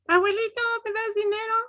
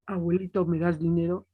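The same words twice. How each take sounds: First: High-pitched request. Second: Said in the usual way. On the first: Shown as a demonstration. Teacher's high-pitched take for grandpa. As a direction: lift it way up high. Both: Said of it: "La voz aguda".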